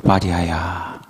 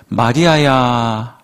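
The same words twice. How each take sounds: First: Lower, softer and solemn name call; deep, hushed solemn 마리아야. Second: Slow, tender calling of a name; gentle, drawn-out name call. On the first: Shown as a demonstration. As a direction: say the name like a grave divine voice. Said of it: "좀 더 멋있게 말씀하셨을까요?". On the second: Acted. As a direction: linger lovingly on the name. Jesus calls Mary's name.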